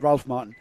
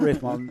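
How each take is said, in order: First: The first name has a short A and an L. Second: The first name rhymes with safe, no L sound. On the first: The speaker calls it right. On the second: The speaker calls it wrong. "not Rafe Martin"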